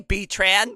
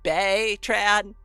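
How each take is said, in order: First: The first syllable sounds like 'bee'. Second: The first syllable sounds like 'bay'. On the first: The speaker calls it wrong. "for like three months I called Baytran B-Tran" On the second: The speaker calls it right. "you know it's pronounced Baytran, not B-Tran"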